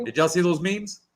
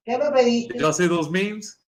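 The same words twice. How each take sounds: First: Said in the usual way. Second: Slow, higher, stretched-out tease; drawn-out teasing voice. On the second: Acted. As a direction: draw the question out in a higher, teasing voice. Repeated, drawn out, in a put-on voice.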